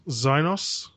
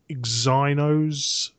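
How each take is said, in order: First: The word begins without the E sound. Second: The word begins with an audible E sound.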